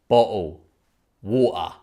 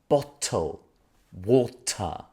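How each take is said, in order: First: The T sounds are dropped. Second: The T sounds are clearly pronounced.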